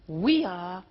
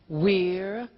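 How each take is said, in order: First: It is said as two full words. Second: It is said as one contracted syllable.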